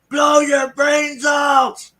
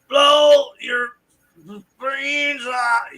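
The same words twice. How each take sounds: First: It sounds only a little drunk, like Renee. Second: It sounds very drunk, like Renee.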